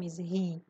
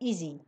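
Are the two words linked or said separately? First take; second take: separately; linked. First: The two words are said separately with a break. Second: The two words run together, dropping the h. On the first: The speaker calls it wrong. "نمیگیم ایز هی" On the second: The speaker calls it right. "میگیم ایزی"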